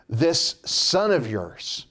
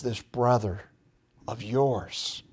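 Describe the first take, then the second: First: Slow, drawn-out and disdainful; contemptuous older brother disowning his brother; with disgust. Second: A father softly reminding his son who this is; quiet, compassionate plea. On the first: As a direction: spit out "son of yours" slowly, holding him at arm's length. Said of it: "with disgust". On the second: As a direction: lower and softer, leaning gently on "brother". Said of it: "He says it with compassion". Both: Retold or imitated.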